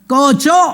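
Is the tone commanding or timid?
commanding. It is said as a firm command.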